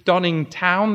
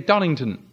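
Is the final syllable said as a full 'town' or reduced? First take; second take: full; reduced. First: The final syllable is a full 'town'. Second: The final syllable is reduced to a weak 'ton'. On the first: "they don't say Donningtown" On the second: "they say Donington"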